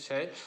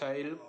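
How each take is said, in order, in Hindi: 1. स्वर का उच्चारण हिंदी जैसा किया गया है। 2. स्वर का उच्चारण संस्कृत जैसा किया गया है। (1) "जबकि हिंदी में शैल बोला जाता है" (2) "अगर संस्कृत में बात की जाए तो शैल बोला जाता है"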